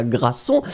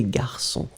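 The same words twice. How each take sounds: First: Grasson, with the r moved before the a, gra-sson; wrong pronunciation. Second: Garçon said gar-sson, r after the a, nasal on; correct pronunciation. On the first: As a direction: say grasson as the mistaken version. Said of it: "c'était pas grasson". (prononciation fautive « grasson ») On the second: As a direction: give the right garçon, clearly. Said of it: "mais c'est garçon". (prononciation correcte « garçon ») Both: Shown as a demonstration.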